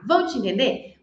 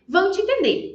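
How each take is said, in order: First: Rising question on ENTENDER; question tune. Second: Higher, falling answer on ENTENDER; answering tune. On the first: Teacher asks learners rhetorically, questioning tune. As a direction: lift ENTENDER at the end as a question. Asks, then answers herself. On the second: Teacher answers own question, affirming tune. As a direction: start high and let ENTENDER fall as a confirmation. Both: Shown as a demonstration.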